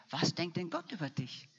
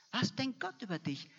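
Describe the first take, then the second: First: Said in the usual way. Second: Higher, pressing question. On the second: Shown as a demonstration. Preacher pressing the congregation with a higher repeat. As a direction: lift the repeat up high, stress Gott.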